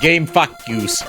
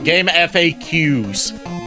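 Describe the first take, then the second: First: FAQ is spoken as one word, like "fuck you". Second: FAQ is spoken as three separate letters. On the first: "a proper pronunciation for it based on uh, VTuber culture" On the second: "Not facts"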